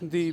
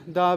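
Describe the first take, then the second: First: The word ends in a long 'ee' vowel. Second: The word ends in a short 'uh' vowel. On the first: The next word begins with a vowel sound. "अगर इससे पहले वॉल sound आ जाए तो इसको दी पढ़ा जाता है" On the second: The next word begins with a consonant sound. "इससे पहले कंसोनेंट साउंड आ जाए तो इसको दा पढ़ा जाता है"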